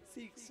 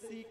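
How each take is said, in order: First: The word ends with a final s sound. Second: The word ends without a final s sound. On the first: The speaker calls it right. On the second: The speaker calls it wrong.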